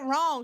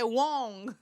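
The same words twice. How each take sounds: First: The word is said in a plain, unaccented way. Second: The word is said with a thick foreign accent. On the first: This is not how she said it. "she ain't said wrong" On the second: This is how she actually said it. "her accent thicker than a Ghanaian man"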